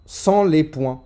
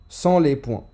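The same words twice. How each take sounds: The two takes are said the same way.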